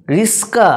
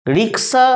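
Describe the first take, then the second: First: রিস্কা with k and s swapped; colloquial altered pronunciation. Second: Said in the usual way. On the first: Shown as a demonstration. Teacher showing students the altered form, রিস্কা with sounds swapped. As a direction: say "ris-ka", s before k. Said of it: "একটু বিকৃত উচ্চারণ". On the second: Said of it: "বাঁ দিকের উচ্চারণগুলো হচ্ছে শুদ্ধ উচ্চারণ".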